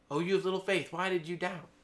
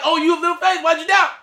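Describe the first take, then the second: First: Jesus's rebuke said softly, almost to himself; quiet musing retelling. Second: Jesus's rebuke exclaimed loudly and high, in disbelief; amazed retelling of Jesus. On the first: Preacher pondering Jesus's words to Peter, soft and low. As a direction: turn it over gently, low and soft. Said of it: "That's so crazy". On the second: Preacher marvelling at Jesus's words to Peter, loud. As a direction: belt it out like you can't believe he said it. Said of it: "and Jesus is like". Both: Retold or imitated.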